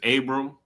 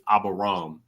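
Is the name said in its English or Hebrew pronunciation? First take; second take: English; Hebrew. First: The name is said in its English form. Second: The name is said in its Hebrew form. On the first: "So the English is Abram" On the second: "the Hebrew uh, pronunciation is Abaram"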